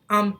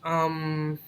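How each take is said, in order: First: The filler sounds confident, like a full stop. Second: The filler sounds hesitant and trailing off. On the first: The speaker is sure of what comes next. The speaker calls it right. "His um sounds very congruent and confident and with a lot of certainty" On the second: The speaker is searching for what to say. The speaker calls it wrong. "He wouldn't say"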